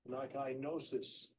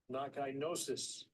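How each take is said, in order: Both takes have the same delivery.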